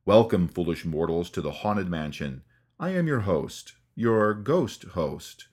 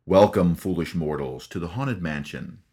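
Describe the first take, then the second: First: Paul Frees ghost host. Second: Spooky ghost host. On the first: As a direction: draw out each word like a haunting host. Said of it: "the chilling voice of Paul Frees". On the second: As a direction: greet the guests like a creepy ghost host. Haunted Mansion host greeting imitated. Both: Retold or imitated.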